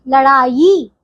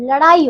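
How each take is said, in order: First: लड़ाई said la-Ṛaa-yee; wrong yi ending. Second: लड़ाई said la-Ṛaa-ee; pure ee ending. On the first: Teacher showing wrong लड़ाई with drawn-out yee. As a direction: add a y before the ending of लड़ाई. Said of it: "गलत बच्चों". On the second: Teacher correcting pupils, लड़ाई with plain ee. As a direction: glide into ee in लड़ाई without y. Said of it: "इसमें ई आती है". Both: Shown as a demonstration.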